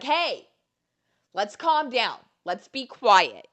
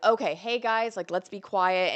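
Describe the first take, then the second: First: High, projected cheer-squad call; cheerleading voice. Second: Lightly imitated calm mom. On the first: Shown as a demonstration. Cheerleader telling friends to calm down, projecting voice. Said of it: "I have a cheerleading voice". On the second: Mom of a baby hushing friends, calm mom voice. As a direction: gently hush the group like a mom. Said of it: "she has, like, a mom voice".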